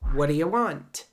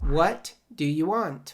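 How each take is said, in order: First: Sounds are dropped and the words run together. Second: Every word is said fully and separately.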